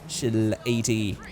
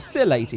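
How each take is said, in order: First: The name starts with a 'ch' sound. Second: The name starts with an 's' sound. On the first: "as I keep saying chill eighty" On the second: "however you like to say it"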